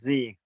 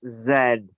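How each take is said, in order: First: The letter Z is said the American way. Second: The letter Z is said the non-American way.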